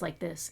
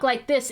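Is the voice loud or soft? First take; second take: soft; loud. First: It is said softly, in a relaxed voice. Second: It is said loudly, in a half yell. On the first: This is the everyday way of talking in a chat. "how I normally talk in a voice chat" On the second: This is the way of talking during a stream. "I talk like this instead when I'm streaming"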